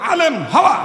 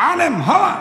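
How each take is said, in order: The two takes are said the same way.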